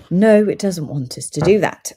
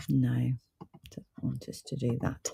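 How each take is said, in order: First: Said in the usual way. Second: Soft mutter under the breath; muttering to self. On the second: Real, not acted. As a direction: mumble it quietly to yourself, half-aside. Reading the screen, then repeating aloud.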